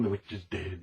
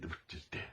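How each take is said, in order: First: Softly sung, much quieter; quiet singsong. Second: Whispered repeat, no voice at all. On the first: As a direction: let it drop to a soft little tune. Sings after the jingle. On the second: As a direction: breathe it out as a secret whisper. Repeats the line. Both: Pretend.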